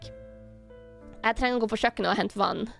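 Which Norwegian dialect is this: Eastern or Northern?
Northern. It is spoken in a Northern Norwegian accent. "this is like Northern Norwegian dialect"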